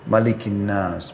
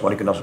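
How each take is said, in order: First: It is recited slowly, followed by a clear stop. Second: It is recited quickly, run together without pausing. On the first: Each phrase is given its due. The speaker calls it right. "Tartilkan Al-Quran itu pelan-pelan. Berhenti" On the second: The reciter is not attending to what is read. The speaker calls it wrong. "dengan seperti orang terburu-buru"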